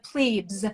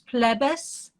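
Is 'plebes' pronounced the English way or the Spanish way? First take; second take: English; Spanish. First: The word is pronounced the American English way. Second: The word is pronounced the Spanish way. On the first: "in the U S we'd say the plebes" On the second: "but in Spanish I think it's Los Plebes"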